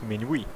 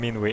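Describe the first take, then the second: First: The name is pronounced in a French way. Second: The name is pronounced in an English way. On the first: "if I were to go full French, that is of course Minuit" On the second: "I'm calling him Minwi in English"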